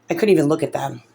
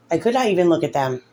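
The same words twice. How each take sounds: First: Said in the usual way. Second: NOT set apart and stressed. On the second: Real, not acted. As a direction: lean on the word "not" for emphasis. Repeats it, uncontracted for emphasis.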